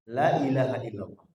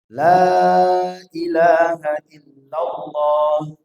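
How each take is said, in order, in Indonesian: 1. Vokal alif dipendekkan. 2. Vokal alif dibaca panjang.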